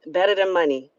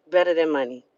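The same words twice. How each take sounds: First: Said in the usual way. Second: Better repeated lower and softer, falling; a low, quieter second Better than money; softer echo. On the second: Shown as a demonstration. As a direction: let the echo sink in quietly.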